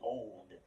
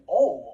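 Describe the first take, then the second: First: It ends with a clear d sound. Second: It ends without a d sound, like ole. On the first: The speaker calls it wrong. "I don't say old" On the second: The speaker calls it right. "I say old, O L E"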